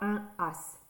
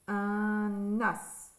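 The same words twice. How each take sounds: First: The two words are said without a link. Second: The n sound links into the following vowel. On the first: The speaker calls it wrong. "On ne dit pas" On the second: The speaker calls it right. "On fait la liaison"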